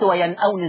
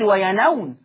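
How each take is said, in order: First: The glottal stop is kept, pronounced as written. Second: The glottal stop is dropped, its vowel moved back. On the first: The speaker calls it right. "زي ما هي" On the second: The speaker calls it wrong. "قلت وينأون ولا"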